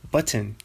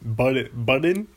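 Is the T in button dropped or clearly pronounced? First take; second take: pronounced; dropped. First: The T in the middle is clearly pronounced. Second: The T in the middle is dropped. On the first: "I really hit the T on button" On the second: "if you don't say button, then you say button"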